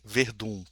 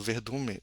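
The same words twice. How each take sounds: First: Said in the usual way. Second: "Verdun" with a stray "me" syllable on the end; "Verdun" slipped into "Verdume", cut off; mispronounced Verdun. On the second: Real, not acted. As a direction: stumble into "Verdun me-". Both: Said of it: "perdão, eu pronunciei errado".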